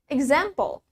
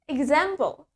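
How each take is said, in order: The two takes are said the same way.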